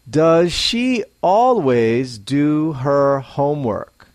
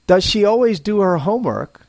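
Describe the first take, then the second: First: Each word is said separately and fully. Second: Some words are blended together smoothly. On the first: The speaker calls it wrong. "spoken unnaturally, as a learner might speak it" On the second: The speaker calls it right. "let's blend together some of the words for a more natural sound"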